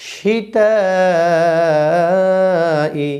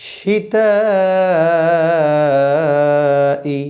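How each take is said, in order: Both takes have the same delivery.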